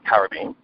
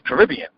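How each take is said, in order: First: It is said in a British accent. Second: It is said in an American accent. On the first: "British people, they speak with a heavy accent. It's just Caribbean" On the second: "typical Americans, they say Caribbean"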